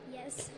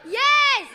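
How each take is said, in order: First: It is said quietly. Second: It is said loudly.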